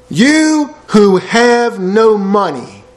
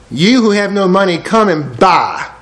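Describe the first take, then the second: First: Very slow drawn reading. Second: Slowing right down on come and buy; slow reading. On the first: Preacher savours Isaiah's line, very slow and drawn. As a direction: stretch every word out slowly. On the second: Preacher rereads Isaiah, slowing on the offer. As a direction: let come and buy land slowly. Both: Shown as a demonstration.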